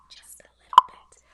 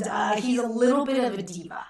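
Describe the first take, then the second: First: Whisper. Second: Said in the usual way. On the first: Acted. Whispered aside after diva remark.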